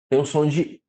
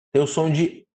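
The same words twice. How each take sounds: The two takes are said the same way.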